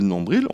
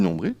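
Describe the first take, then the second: First: The final L sound is pronounced. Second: The final L sound is silent. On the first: "soit la présence du L" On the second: "On a aussi l'absence de L"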